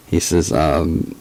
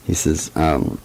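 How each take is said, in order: Both takes have the same delivery.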